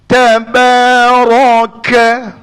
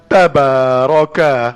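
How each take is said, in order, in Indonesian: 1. Kata itu diucapkan dengan tegas, dengan nada marah. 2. Kata itu diucapkan dengan lembut, dengan nada halus. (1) "Marah tu bunyinya" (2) "itu tak marah, itu lemah lembut"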